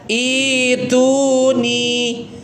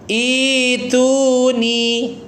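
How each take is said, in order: First: The word begins with a long i vowel. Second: The word begins with a long i vowel.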